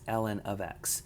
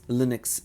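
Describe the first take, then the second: First: The letters L and N are said separately. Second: It is read as a single blended word. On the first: The speaker calls it right. "It's ln of x" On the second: The speaker calls it wrong. "don't read this as one word like Linux"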